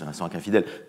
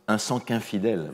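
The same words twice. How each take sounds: First: The linking sound is light and gentle. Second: The linking sound is strong and heavily marked. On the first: The speaker calls it right. "indirecte, euh, douce" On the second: The speaker calls it wrong. "Il ne faut pas le faire comme ça"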